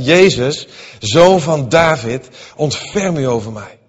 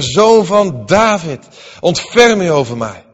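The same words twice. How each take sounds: First: A loud call, stretched on zoon van David. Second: Higher and louder, zoon van David drawn out; crying out louder. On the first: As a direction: cry out for mercy from the roadside. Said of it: "begon hij te roepen". (luid roepen om ontferming) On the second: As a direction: call again, even more desperately. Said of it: "Maar hij riep des te meer". (nog luider en hoger roepen) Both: A narrator's reading.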